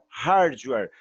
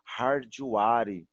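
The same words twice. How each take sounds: First: It is pronounced the English way, not as spelled. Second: It is read out more like its spelling. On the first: The speaker calls it right. "eu falo uma coisa, mas eu escrevo outra" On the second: The speaker calls it wrong. "como eu já ouvi"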